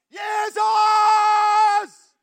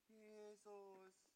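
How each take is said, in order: First: The name is shouted loudly. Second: The name is said quietly.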